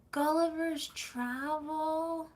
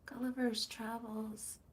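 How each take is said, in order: First: "Gulliver's Travel" drawn out slowly without the final s, searching; groping slowly for "Gulliver's Travel"; half-remembered title. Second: "Gulliver's Travels" with the s added, softer; quiet self-correction to "Gulliver's Travels"; corrected title. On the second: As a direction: settle on "Gulliver's Travels", s included. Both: Real, not acted.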